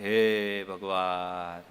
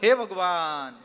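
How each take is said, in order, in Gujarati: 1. દુઃખભર્યો લાગે છે, શોકના ભારે નિસાસા જેવો. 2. ડરેલો લાગે છે, ચોંકીને નીકળેલી ડરની ચીસ જેવો. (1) "આ શોકથી" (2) "એક ભયથી"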